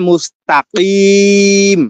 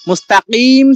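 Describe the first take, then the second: First: The vowel before the final 'm' is drawn out longer. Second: The vowel before the final 'm' is held briefly. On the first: The reading stops at this word. "থামলে মুস্তাকিম" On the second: The reading continues without a stop. "মুস্তাকিম ছিল"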